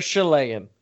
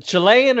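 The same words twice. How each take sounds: First: "Chilean" opening on a soft SH, as in shell; "Chilean" as shuh-LAY-an; soft SH pronunciation. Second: "Chilean" opening on a hard CH, as in chill; "Chilean" as chuh-LAY-an; hard CH pronunciation. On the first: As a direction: say "Chilean" starting with sh. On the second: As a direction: say "Chilean" starting with a crisp ch. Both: Shown as a demonstration. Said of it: "Is it Chilean or Chilean?".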